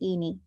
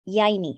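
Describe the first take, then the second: First: The name begins with a plain 'ee' sound. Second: The name begins with a 'y' glide sound. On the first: The speaker calls it wrong. "up to this point thought it was Eenie" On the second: The speaker calls it right. "now it's not Eenie but Yaini"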